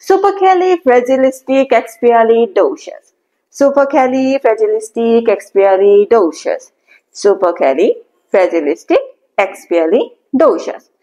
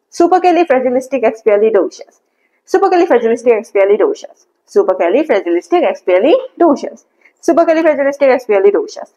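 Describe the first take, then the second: First: Slow, whole word in one go; slow whole-word model; slowly all together. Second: Supercalifragilisticexpialidocious run off at normal speed. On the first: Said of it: "Now try to say all together". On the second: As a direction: rattle the whole word out fluently. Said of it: "তারপরে এটা স্পিডে বলতে থাকবেন". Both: Shown as a demonstration.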